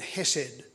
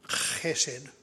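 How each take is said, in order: First: It begins with a plain, soft h sound. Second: It begins with a rough, throaty h sound. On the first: The speaker calls it wrong. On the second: The speaker calls it right.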